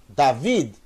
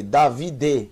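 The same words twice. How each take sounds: First: "David" in two beats, the D closing the second syllable; joined final D. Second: "Davi D" with the final D as its own syllable, "de"; wrong separated reading. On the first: Teacher correcting the misreading, final D joined onto "vi". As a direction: say "David" as da-VID, no vowel after the D. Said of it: "o som da letra final se junta com a letra anterior". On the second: Teacher showing beginners the misreading, final D split off as "de". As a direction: say "Davi D" in three beats, ending on a voiced "de". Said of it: "você não vai ler Davi D".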